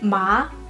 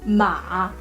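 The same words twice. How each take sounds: First: The pitch rises from mid to high. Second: The pitch dips low and then rises. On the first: "the second tone with ma" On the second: "and then ma"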